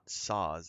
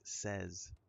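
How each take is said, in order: First: The word is said with the vowel of 'saw'. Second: The word is said with the vowel of 'set'. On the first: The speaker calls it wrong. "It's not saws" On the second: The speaker calls it right. "It's says"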